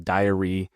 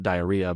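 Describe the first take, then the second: First: Diary said clearly as DIE-uh-ree; diary, not diarrhea. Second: Diarrhea said as a quick jokey aside; diarrhea, the wrong word. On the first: Teaching the word diary to copywriting students, said clearly. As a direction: say diary with a light, crisp r, plainly not diarrhea. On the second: Joking aside to students about the wrong word, light. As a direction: diarrhea tossed off as the mix-up to avoid. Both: Shown as a demonstration. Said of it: "not diarrhea".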